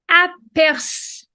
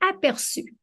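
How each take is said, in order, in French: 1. Le mot s'arrête sur le S, avant le U. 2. Le mot est prononcé de façon fluide, sans pause.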